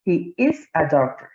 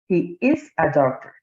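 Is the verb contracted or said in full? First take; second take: full; full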